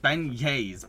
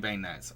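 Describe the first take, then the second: First: The word ends in a vowel, no 'ts'. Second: The word ends with a clear 'ts' sound. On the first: "see how it's pronounced" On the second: "Am I saying it right?"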